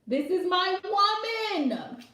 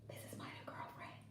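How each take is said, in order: First: It is said boldly and confidently. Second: It is said timidly and hesitantly.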